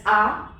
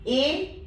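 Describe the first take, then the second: First: A pronounced as open "ah"; French A. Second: Said in the usual way. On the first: Shown as a demonstration. Teacher repeating the French vowel rule, A said "ah". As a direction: give A the French "ah" sound. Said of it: "is pronounced as A". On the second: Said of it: "A is pronounced as A".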